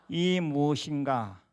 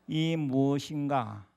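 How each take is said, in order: The two takes are said the same way.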